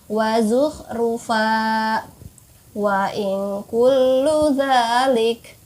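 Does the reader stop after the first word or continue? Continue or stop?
stop. There is a stop after the first word. "boleh berhenti juga"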